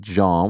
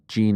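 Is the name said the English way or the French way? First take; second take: French; English. First: The name is said with a French pronunciation. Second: The name is said with an English pronunciation. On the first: This is how the name is really said in French. "in Haiti, they speak French, and I feel like Jean is really Jean" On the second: This is how he calls himself. "That's how he's calling himself"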